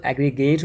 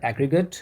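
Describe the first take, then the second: First: aggregate with its last syllable stressed as a full "gate"; verb-form stress. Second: aggregate ending in a short schwa, "AG-ri-gut"; reduced final vowel. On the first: Teacher showing the verb pronunciation, stressed final syllable in aggregate. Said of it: "ये वाला syllable हमें इस पर stress देना है". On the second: Teacher showing adjective and noun pronunciation, schwa ending in aggregate. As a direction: say aggregate with a weak "uh" in the last syllable. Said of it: "ये अ sound आ जाएगा". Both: Shown as a demonstration.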